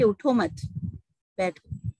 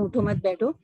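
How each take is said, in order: First: There is a pause after मत. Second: It is said quickly with no pause.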